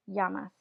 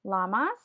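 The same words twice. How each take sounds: First: Llamas with a Y sound, YAH-mas; Spanish llamas, double L as Y; the Spanish word. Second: Llamas with an English L, LAH-mas; English animal name Llamas. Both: Shown as a demonstration. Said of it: "this word is llamas".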